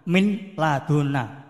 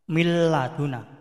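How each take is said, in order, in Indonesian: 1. Bunyi n dibaca jelas sebelum l. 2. Bunyi n melebur menjadi bunyi l yang ganda. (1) "Misalnya mil min laduna" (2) "membacanya mil laduna"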